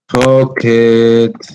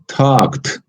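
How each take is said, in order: First: The ending adds an extra syllable. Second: The ending is a plain t sound. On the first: The speaker calls it wrong. "if you add a syllable, you might you are going to pronounce this way" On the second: The speaker calls it right. "the ed is pronounced as a t"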